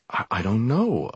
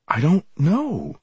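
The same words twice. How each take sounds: First: Said in the usual way. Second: Higher, slower, pleading denial; desperate. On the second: Acted. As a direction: cry out the repeat in panic. Bewildered student, repeated denial.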